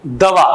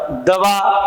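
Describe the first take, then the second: First: दवा said with a v sound, da-vaa; दवा spoken with v instead of b; wrong pronunciation. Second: दबा said clearly with a b sound, da-baa; crisp b in दबा, not v; दबा with a firm b as in press down; correct pronunciation. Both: Shown as a demonstration. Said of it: "अब इस दवा का अर्थ तो हो गया मेडिसिन".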